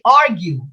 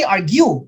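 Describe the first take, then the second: First: AR stressed in "argue", falling away after it; stress on first syllable. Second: GUE stressed in "argue", light first syllable; stress on second syllable. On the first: Teacher correcting students' pronunciation, "argue" stressed on first syllable. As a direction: say "argue" as AR-gue. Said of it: "First syllable". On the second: Teacher showing students what not to say, "argue" stressed on second syllable. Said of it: "we don't say argue". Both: Shown as a demonstration.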